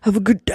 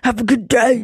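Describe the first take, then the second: First: The phrase is said with mild, ordinary energy. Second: The phrase is said with forceful, loud energy. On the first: The speaker calls it wrong. "No. I need to say it with some. Say it with your chest" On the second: The speaker calls it right. "That's as hardcore as I could say it"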